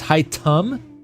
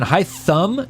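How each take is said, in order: First: The middle consonant is a plain 't' sound. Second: The middle consonant is a 'th' sound. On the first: The speaker calls it right. "Like with a t instead of a th" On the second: The speaker calls it wrong. "not even Hytham"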